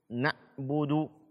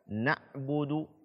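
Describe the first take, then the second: No difference in how they are said.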